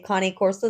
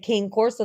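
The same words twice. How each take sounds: First: The name is said with Italian-style sounds. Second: The name is said as English spelling suggests. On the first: Most listeners do not recognize the breed. "they think you're slurring or something" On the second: Most listeners recognize the breed. "if you just say Cane Corso"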